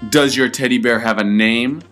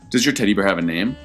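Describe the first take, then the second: First: It is said at a louder volume. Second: It is said at a softer volume.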